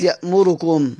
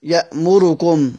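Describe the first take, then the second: The two takes are said the same way.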